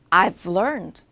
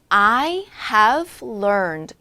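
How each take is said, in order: First: Have is shortened and joined onto I. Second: The word have is said fully and separately. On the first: "사실 줄여서 발음을 많이 합니다" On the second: "I have learned 이렇게 하지 않고"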